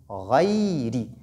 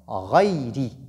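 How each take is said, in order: The two takes are said the same way.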